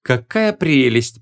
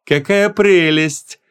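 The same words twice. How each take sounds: First: Slow remark in his own register, not pitched up; native-tongue aside. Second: High, very slow, honeyed cooing; sugary delight. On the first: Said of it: "перешёл на родной язык он". (протяжно, без высокого сюсюканья) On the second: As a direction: coo in a put-on sweet voice, stretching it out. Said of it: "с очень сладеньким голосом". (слащавое высокое протяжное восхищение) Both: A narrator's reading.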